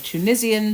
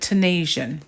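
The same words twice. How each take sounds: First: It is said with a British pronunciation. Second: It is said with an American pronunciation. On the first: This is how the speaker's own country says it. "Tunisian to us" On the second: This is how people across the Atlantic say it. "if you're on the other side of the pond, you call it Tunisian"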